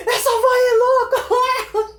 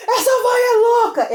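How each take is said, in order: First: High, loud, slow cry through laughter; laughing shout. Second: High, loud and slow laughing yell; friend's shout. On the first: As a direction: yell it while doubled over laughing. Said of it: "ele gritava". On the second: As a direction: bellow it like a tall friend cracking up. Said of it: "ele falava assim". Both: Retold or imitated.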